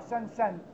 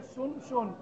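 First: Both s sounds are followed by an a vowel. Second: Both s sounds are followed by a u vowel. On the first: The speaker calls it wrong. "إذا ما محركت تقرأها سنسن مثلا" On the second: The speaker calls it right. "بضم السين الأولى وسكون النون وضم السين الثانية"

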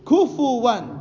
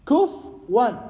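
First: A u vowel after f, then a w sound. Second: No vowel after f, then a w sound. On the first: "الفاء مضمومة مع الواو" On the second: "الفاء ساكنة مع الواو"

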